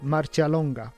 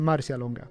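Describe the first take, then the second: First: The name is said with a foreign-sounding pronunciation. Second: The name is said with a Swedish-sounding pronunciation. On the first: "Jag vill välja att säga Marcialonga" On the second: "Kanske en försvenskning att säga som jag gör"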